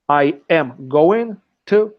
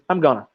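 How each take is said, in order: First: Each word is said fully and separately. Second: The words are reduced and blended together. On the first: "let's say" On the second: "we say I'm gonna"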